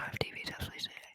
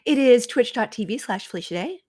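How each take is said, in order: First: It is said in a soft, whispery ASMR voice. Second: It is said in her normal speaking voice.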